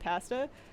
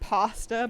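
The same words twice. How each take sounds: First: It is said with a Canadian accent. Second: It is said with an American accent.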